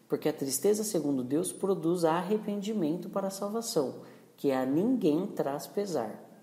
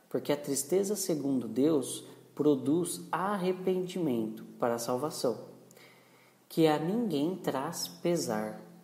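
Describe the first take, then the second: First: It is read at a faster pace. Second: It is read at a slower pace.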